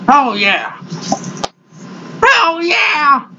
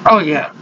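First: Higher, shouted oh yeah; excited shout. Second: Said in the usual way. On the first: Real, not acted. To viewers, the dip kicking in, an excited shout. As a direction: belt it out in delight at the dip.

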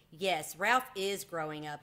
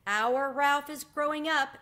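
First: Slow, wistful agreement; sad note. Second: High, loud, drawn-out aunt's voice; proud exclamation. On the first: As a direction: agree slowly, with a touch of sadness. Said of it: "agreed his mother with a sad note in her voice". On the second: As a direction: announce it slowly, high and loud, marvelling. Aunt marvels at nephew growing up. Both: A narrator's reading.

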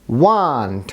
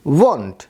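First: ওয়ান্ট with an open আ vowel, lower; American pronunciation. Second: ওয়ান্ট with a rounded ও vowel; pronunciation demo. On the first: (ওয়ান্ট American উচ্চারণে আ দিয়ে) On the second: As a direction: say ওয়ান্ট British style. (ওয়ান্ট British উচ্চারণে) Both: Shown as a demonstration. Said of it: "American প্রনাউন্সিয়েশনে আবার".

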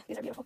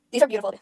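First: Very soft, under the breath; hushed repeat. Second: Said in the usual way. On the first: Real, not acted. Streamer repeats the praise to themself, hushed. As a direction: drop it to a near-silent aside. Same words said twice, second hushed.

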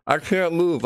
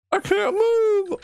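First: Said in the usual way. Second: High, slow terrified scream; panicked scream. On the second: Real, not acted. Stuck in place, dreading jump scare.

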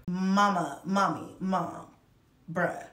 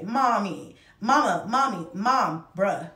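First: Said in the usual way. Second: Imitating kids calling for mom, a bit louder; mild mock kids calling mom. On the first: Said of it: "if this isn't my life on a fucking t-shirt". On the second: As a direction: call out mom like the kids do all day. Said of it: "I am called all of these things every day".

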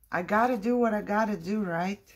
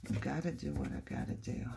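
First: Higher, brisk self-pep-talk; resolute. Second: Low, soft, quick self-talk; resigned. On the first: Crafter steels herself to glue, resolute. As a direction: psych yourself up, quick and raised. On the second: Crafter accepts she must glue, quietly resigned. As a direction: say it quietly to yourself, giving in. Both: Real, not acted.

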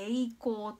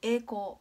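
First: Slow "栄光" with a distinct i after e; clear "ei". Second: "栄光" as ee-koo, long e with no i; everyday pronunciation. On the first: Teacher giving example words, slow "栄光" with the "ei" sounded. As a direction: read "栄光" slowly as e-i-kou. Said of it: "えいっていう音が入る". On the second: Teacher demonstrating natural speech, "栄光" as ee-koo. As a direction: say "栄光" casually, stretching e in place of ei. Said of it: "普通に日本語で話している通り". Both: Shown as a demonstration.

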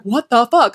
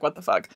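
First: Louder, higher, appalled; mock shocked outburst. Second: Softer and lower, deadpan; flat muttered version. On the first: Heroine learning the truth, a shocked outburst. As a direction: blurt it out in disbelief. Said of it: "And she's like". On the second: Retold or imitated. Reviewer agreeing, flat deadpan mutter. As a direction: toss it off quietly, unimpressed. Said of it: "you would be like".

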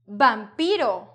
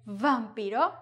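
First: Vampiro slowly, starting with a firm b. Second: Vampiro with a buzzing v, questioning rise; English v. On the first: Teacher giving her own way, vampiro with b. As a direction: say vampiro as if spelt bampiro. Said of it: "No, I say". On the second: Teacher rejecting a wrong take, vampiro with English v. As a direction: start vampiro with teeth on lip, as in English. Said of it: "I don't say vampiro". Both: Shown as a demonstration.

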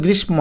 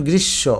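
First: গ্রীষ্ম as "grish-mo", m pronounced; wrong, m sounded. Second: গ্রীষ্ম as "grish-sho", no m; doubled sh, silent m. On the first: Teacher showing the mistake, গ্রীষ্ম with sounded m. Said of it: "ময়ের উচ্চারণ হয় নাই". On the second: Teacher showing correct m-fola, গ্রীষ্ম as "grish-sho". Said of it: "যেমন এটার উচ্চারণ". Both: Shown as a demonstration.

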